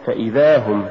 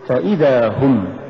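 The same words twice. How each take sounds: First: فإذا run together with no push on the hamza; wrong stress. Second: فإذا with ف set apart and إذا pushed; push after fa. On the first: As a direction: say فإذا هم quicker, as one word. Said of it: "ولا تقل". (نطق فإذا ككلمة واحدة دون دفع الهمزة) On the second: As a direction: lean on the hamza after ف in فإذا. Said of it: "قل". (نطق فإذا بدفع الهمزة بعد الفاء) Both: Shown as a demonstration.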